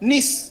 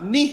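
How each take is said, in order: First: The syllable ends with an s sound. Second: The syllable ends with an h sound. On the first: The speaker calls it right. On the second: The speaker calls it wrong. "নিহ নয়"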